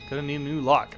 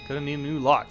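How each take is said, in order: First: It is read in a put-on character voice. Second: The same.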